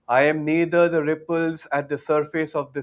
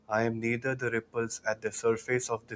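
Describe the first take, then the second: First: It is spoken loudly with full voice. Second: It is spoken at ordinary conversational volume. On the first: "Loudly once again" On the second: "In a normal voice now"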